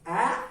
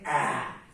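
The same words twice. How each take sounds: First: The pitch of the vowel rises. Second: The pitch of the vowel falls. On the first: "with the rising tone, we say ah" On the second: "With the falling tone, we say ah"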